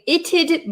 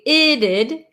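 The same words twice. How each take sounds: First: A clear T is followed by a D. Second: The T is a quick flap. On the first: "it's a little bit uncommon to hear the t and then the d sound" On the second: "almost like the T is becoming a flap T"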